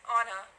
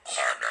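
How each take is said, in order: First: Said in the usual way. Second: Name burped out low; burping the words. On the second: Shown as a demonstration. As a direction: burp the name out loud. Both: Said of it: "Can you burp my name?".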